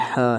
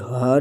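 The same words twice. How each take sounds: First: ہا said with a thin, light h; light ha, correct. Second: ہا said with a thick, heavy throat h; heavy ha, wrong. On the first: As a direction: give ہا a light, clean h. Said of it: "یہ ہا ہے". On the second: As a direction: make ہا heavy as the common mistake. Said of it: "یہ ہا نہیں". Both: Shown as a demonstration.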